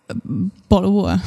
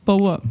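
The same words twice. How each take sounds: First: British "bottle of water"; British accent. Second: British "bottle of water" run into one word; clipped British accent. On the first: Co-host gives a starter word for British, in a British accent. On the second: Co-host proves it's one word in English, slurred British accent. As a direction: swallow the t's in British "bo'o' wa'". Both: Shown as a demonstration. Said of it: "That's one word in English".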